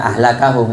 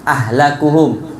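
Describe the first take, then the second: First: The vowel after the k is a. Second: The vowel after the k is u. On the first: He has caused them to be ruined. "dibaca nasob kafnya" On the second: They are the most ruined of people. "dengan merofakkan lafadz kaf"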